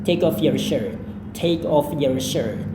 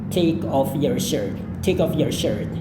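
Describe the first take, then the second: The two takes are said the same way.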